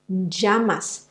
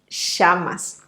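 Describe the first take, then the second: First: The double L sounds like a soft j. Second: The double L sounds like a strong sh. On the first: "it sounds more like a soft j" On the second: "it's more like a strong sh"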